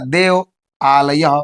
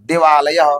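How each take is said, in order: First: Two separate words are said, without merging vowels. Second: The words merge into one with a long vowel. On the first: "अलग अलग था" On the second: "यहां पे क्या हो गया?"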